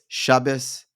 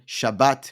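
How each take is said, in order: First: It is said ending with an s sound. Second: It is said ending with a t sound.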